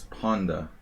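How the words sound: The word is said with a Hungarian pronunciation. "In Hungarian, it's Ponda"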